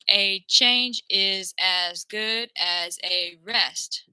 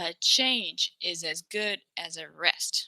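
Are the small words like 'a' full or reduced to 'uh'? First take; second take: full; reduced. First: The small words keep full, clear vowels. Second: The small words are reduced to a weak 'uh'. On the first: It is harder to understand. The speaker calls it wrong. "If you speak like this" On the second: It sounds closer to natural stress-timed English. The speaker calls it right. "change it to a"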